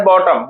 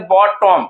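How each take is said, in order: First: Said in the usual way. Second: bottom broken into two parts, बॉट and टम; teacher dividing bottom after बॉट; split into syllables. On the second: Shown as a demonstration. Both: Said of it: "bottom को दो part में तोड़ते हैं".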